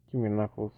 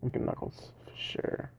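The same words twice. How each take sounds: First: Said in the usual way. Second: Breathy whispered wish; whispering. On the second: Real, not acted. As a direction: whisper it to yourself. Whispered, then said aloud.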